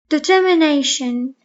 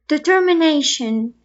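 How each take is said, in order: Both takes have the same delivery.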